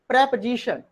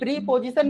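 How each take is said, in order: First: The first vowel is a short e sound. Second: The first vowel is a long ee sound. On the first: The speaker calls it right. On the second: The speaker calls it wrong.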